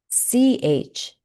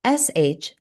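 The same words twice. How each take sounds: First: Short, unvoiced "ch" on its own; "ch" as one quick burst of air; C H sound. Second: Unvoiced, sustained "sh" on its own; "sh" as a continuous hush, no T before it; S H sound. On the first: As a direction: start "ch" with a T that releases into sh. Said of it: "C H says ch". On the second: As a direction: let air flow steadily on "sh". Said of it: "S H says sh". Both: Shown as a demonstration.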